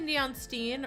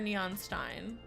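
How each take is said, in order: First: The last word has an 'ee' vowel. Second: The last word has an 'eye' vowel. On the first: The speaker is being lazy. "I say Steen when I'm being lazy" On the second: The speaker is trying to sound smart. "I say Stein when I'm trying to sound smart"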